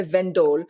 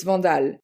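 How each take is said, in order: First: "Vendal" with an English "ven" sound; "Vendal" said the way English callers say it, "ven-dl"; English-style pronunciation. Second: "Vandal" said the French way, open "vahn-dahl"; "Vandal" with a French nasal a, "vahn-dahl"; French pronunciation. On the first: Guest explains how she says her name on English phone calls, anglicised. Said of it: "I say it in an English accent". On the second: Guest asked by host to say her surname properly, French pronunciation. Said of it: "Say it properly for me". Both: Shown as a demonstration.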